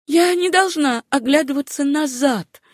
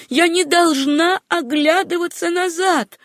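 First: High, urgent self-command; insistent. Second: Higher, drawn-out insistent repeat; more emphatic insistence. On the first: Susanna tells herself not to look back, high and insistent. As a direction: insist on it in a raised pitch. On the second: Susanna repeats her vow to herself, slow, high, emphatic. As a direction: drive it home slowly at a high pitch. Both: A narrator's reading. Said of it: "твердила она".

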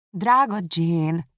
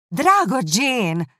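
First: Slow, drawn-out fond exclamation; exclaiming. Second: Slow, high, loud "Drága Jane"; exasperated appeal. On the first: Elizabeth to her too-kind sister, exclaiming. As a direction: cry out the name, stretching each word. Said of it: "kiáltott fel Elizabeth". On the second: Elizabeth losing patience with her sister, exasperated "Drága Jane". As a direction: stretch "Drága Jane" out, raised and forceful. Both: A narrator's reading.

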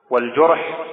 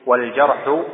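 First: والجرح said "wal-jurh", with a u; rounded u after the jim in والجرح; damma on the jim. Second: والجرح said "wal-jarhu", with an a; fatha on the jim. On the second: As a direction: open a after the jim in والجرح. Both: Shown as a demonstration. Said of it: "بضم الجيم لا بفتحها".

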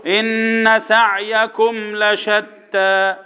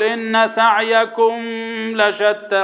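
First: Slow chant moving straight from سعيكم into لشتى; recited slowly, no lingering on the meem of سعيكم; correct tajweed demo. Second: Chanted with the meem of سعيكم wrongly lingered on; slow recitation, humming on the end of سعيكم; wrong tajweed demo. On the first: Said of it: "يبقى نقول ايه على طول". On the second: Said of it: "ما تجيش بقى تقرا تقول". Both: Shown as a demonstration.

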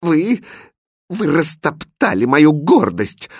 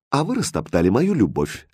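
First: High, wounded malicious accusation; princess's vicious, halting reproach; spiteful. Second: Said in the usual way. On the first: A narrator's reading. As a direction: accuse him spitefully, pitched up. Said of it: "злобно сказала принцесса". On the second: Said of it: "ответил Хрустальд".

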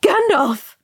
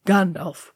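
First: High, loud cry of horror; horrified shriek. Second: Said in the usual way. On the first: A narrator's reading. Frodo seeing the wizard caught, shrieking in horror. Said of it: "Frodo shrieked in horror". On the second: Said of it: "Thorin began".

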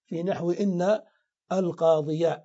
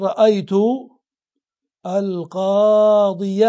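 First: القاضي ending "-ya", said evenly without stretching; fatha ending, unforced. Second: القاضي stretched slowly and loudly, ending "-ya"; audible fatha ending. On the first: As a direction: sound the final fatha on القاضي in an everyday voice. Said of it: "وتظهر الفتحة". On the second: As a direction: hold القاضي long and sound the final fatha, "al-qaadiya". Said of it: "فالفتحة تظهر". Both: Shown as a demonstration.

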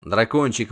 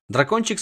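First: Said in the usual way. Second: Дракончик raised high with a rise; Дракончик lifted tenderly upward. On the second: A narrator's reading. Narrator introduces the little dragon, lifted up.

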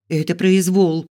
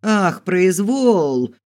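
First: Raised, louder protest; indignant. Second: High, loud, long-drawn mocking cry; outraged yell. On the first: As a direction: object indignantly, voice up. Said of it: "возмутилась я". (возмущённо, повысив голос) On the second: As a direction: throw the word back as a slow, outraged wail. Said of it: "завопила тётушка". (возмущённый протяжный вопль) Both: A narrator's reading.

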